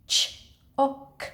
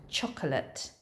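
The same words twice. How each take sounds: First: "Ch-oc-olet" slowly broken into parts; sounded out. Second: Said in the usual way. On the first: Shown as a demonstration. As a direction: separate the opening "ch", then "oc", then "olet". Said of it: "quite a hard one to sound out". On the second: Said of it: "it does begin with the ch sound".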